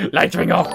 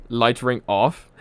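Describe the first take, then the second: First: Louder, barked smart-speaker command; mock voice command. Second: Said in the usual way. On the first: Shown as a demonstration. Streamer commands the smart speaker, loud mock order. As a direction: order the light ring off like talking to Echo. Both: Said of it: "I wish I could tell my, uh, my Echo to just do that".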